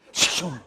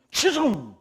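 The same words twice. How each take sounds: First: Said in the usual way. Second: Loud high call across the room; ringing shout of the name. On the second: Acted. Preacher calls out a name.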